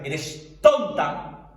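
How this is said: It is said in a harsh, insulting tone.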